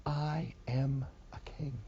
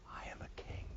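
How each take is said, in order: First: Softer and slow, voiced. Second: Whispered. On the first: Preacher repeats Jesus' claim to Rome in a soft slow voice. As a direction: lay the words down gently. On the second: Acted. Preacher repeats Jesus' claim to Rome as an awed whisper. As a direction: breathe it like a sacred secret.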